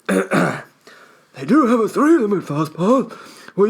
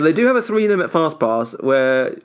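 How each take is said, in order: First: It is said in an imitated eccentric old man's voice. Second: It is read in a natural, normal voice.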